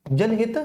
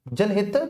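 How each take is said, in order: Both takes have the same delivery.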